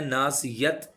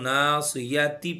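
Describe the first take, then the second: First: The word ends in a 't' sound. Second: The word ends in a 'ti' sound. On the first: The speaker calls it wrong. "ना सियत नहीं करना, ता की आवाज़ नहीं निकालनी" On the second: The speaker calls it right. "अगर हम मिलाकर पढ़ेंगे तो ना सियाती पढ़ेंगे"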